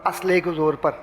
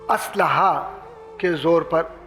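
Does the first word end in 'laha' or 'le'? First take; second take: le; laha. First: The first word ends with the syllable 'le'. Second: The first word ends with the syllables 'laha'. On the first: The speaker calls it wrong. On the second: The speaker calls it right.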